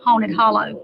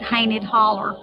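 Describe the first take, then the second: First: The name is said in a standard form. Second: The name is said in a local dialect form. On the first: "the correct pronunciation would be Haunted Hollow" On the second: "called Hainted Holler"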